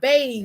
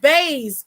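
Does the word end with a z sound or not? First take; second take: no z; z sound. First: The word ends without a z sound. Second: The word ends with a z sound. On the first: The speaker calls it right. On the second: The speaker calls it wrong.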